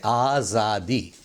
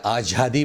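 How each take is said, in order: First: 'आज़ादी' slowly with a clear z; correct pronunciation. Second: 'आज़ादी' with j or jh for z; wrong pronunciation. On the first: Teacher models the proper word, correctly pronounced. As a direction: draw out 'आज़ादी' with a buzzing z. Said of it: "सही तलफ़ुज़ है". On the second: Teacher shows another common slip, mispronounced. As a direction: put a heavy j in 'आज़ादी'. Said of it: "यह गलत". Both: Shown as a demonstration.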